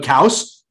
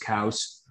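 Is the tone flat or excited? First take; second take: excited; flat. First: It is said excitedly, like a puppy. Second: It is said flatly and quietly.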